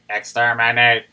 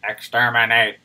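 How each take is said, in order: First: It is said in a put-on robot voice. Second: The same.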